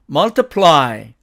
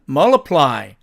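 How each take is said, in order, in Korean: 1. l 뒤의 t 소리는 발음합니다. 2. l 뒤의 t 소리는 탈락합니다. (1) "사전식 발음은 multiply" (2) "트가 사라집니다"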